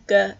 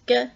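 First: The G is made further back in the mouth. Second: The G is made further forward in the mouth. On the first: "rather than G" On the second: "further forward in the mouth"

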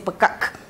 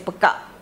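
First: The word ends in a fully released k. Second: The word ends in a glottal stop. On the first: The speaker calls it wrong. "We would never say pekak" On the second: The speaker calls it right. "We would just say pekak. And there is a glottal stop at the end"

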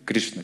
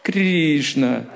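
First: It is said short, with a Sanskrit pronunciation. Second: It is said with a Russian pronunciation. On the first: The speaker calls it right. "Правильно, точно по санскриту. «Кришна», короткое" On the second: The speaker calls it wrong. "Вы все так говорите «Кришна»"

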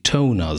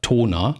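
First: It is pronounced with an English-sounding vowel. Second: It is pronounced with a German-sounding vowel. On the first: The word's English origin can be heard. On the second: The word sounds fully integrated into German.

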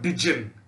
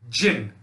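First: The word is two syllables, starting with 'di'. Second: The word is one syllable, starting with 'j'. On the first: The speaker calls it wrong. "and not dijin" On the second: The speaker calls it right. "is pronounced jinn"

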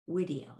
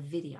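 First: The word begins with a W sound. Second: The word begins with a V sound. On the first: This is the classical pronunciation. "We say wah, wah, wah, wah, video" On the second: This is the ecclesiastical pronunciation. "instead of video"

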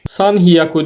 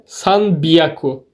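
First: The second part begins with an h sound. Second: The second part begins with a b sound. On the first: The speaker calls it wrong. "San hiyaku değil de" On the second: The speaker calls it right. "değil de san biyaku"

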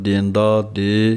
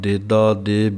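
First: The first syllable is nasalized. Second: The first syllable has no nasal sound. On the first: "बिंदी दे नाल भी पढ़ते हैं" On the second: "मुख पाठ देदा दे बिंदी तो बिना है"

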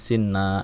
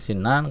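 First: The word ends with a vowel. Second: The word ends with an n sound. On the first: The reader stops on this word. "kalau mau diwakofin jadi sinna" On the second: The word is read in full within the sentence. "kalau mau dibaca ini sinan"

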